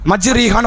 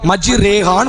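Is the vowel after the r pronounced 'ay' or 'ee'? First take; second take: ee; ay. First: The vowel after the r is a long ee. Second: The vowel after the r is an ay sound. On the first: The reader has not learned the recitation properly. The speaker calls it wrong. "வாசிச்சா பாவம், தப்பு" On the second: This is the recitation handed down through generations. The speaker calls it right. "எப்படிதான் வாசிக்கணும்"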